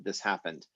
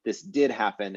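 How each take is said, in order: First: Said in the usual way. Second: "did" stressed, then falling; emphatic DID. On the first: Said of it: "instead of just the regular past tense". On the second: Shown as a demonstration. Teacher contrasting two past tenses, stress on "did". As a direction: make "did" the strong word. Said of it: "I would use the English emphatic past tense".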